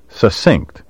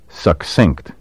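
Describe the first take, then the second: First: The double C sounds like a plain S. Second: The double C sounds like KS. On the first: The speaker calls it wrong. "the beastly mispronunciation" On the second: The speaker calls it right. "pronounce the double C like KS"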